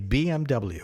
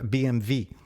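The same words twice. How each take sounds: First: The final letter is said as double-u. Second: The final letter is said like vee.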